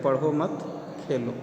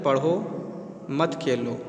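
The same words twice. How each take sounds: First: पढ़ो मत run together, a break, then Khelo; pause after मत. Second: पढ़ो alone, a clear break, then मत खेलो together; pause after पढ़ो. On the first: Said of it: "मत के बाद कॉमा लगा दें". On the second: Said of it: "यदि कॉमा हम यहाँ पर लगा देते हैं". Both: Shown as a demonstration.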